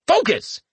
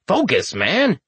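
First: Much higher, sharp self-command; forceful inner command. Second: Said in the usual way. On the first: A narrator's reading. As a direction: snap yourself back to focus. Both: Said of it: "he thought to himself".

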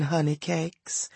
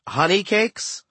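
First: Soft, slow, sweet pet name; affectionate coo. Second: Higher, rising echo of the pet name; incredulous question. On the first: Hippo goddess to her adored dwarf, soft slow endearment. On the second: Boy asks dwarf about the pet name, incredulous question. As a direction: query it with a rising lift. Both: A narrator's reading.

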